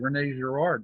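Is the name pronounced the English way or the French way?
English. The name is pronounced with English sounds. "how the English uh, uh, would pronounce it"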